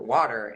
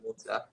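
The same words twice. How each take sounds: First: It is said in an American accent. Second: It is said in a British accent.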